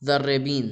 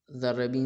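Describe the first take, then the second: First: ذربین said alone, louder, with falling tune; loud, careful classroom pronunciation of ذربین; citation word. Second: Said in the usual way. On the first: Shown as a demonstration. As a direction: present ذربین clearly as a new vocabulary word. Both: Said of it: "ذربین وہی جو".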